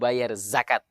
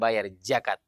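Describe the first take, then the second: First: The word starts with a z sound. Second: The word starts with a j sound. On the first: The speaker calls it right. "mau bayar zakat" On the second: The speaker calls it wrong. "bukan bayar jakat"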